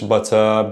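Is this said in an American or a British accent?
British. The middle t is a clear t sound. "maybe British English"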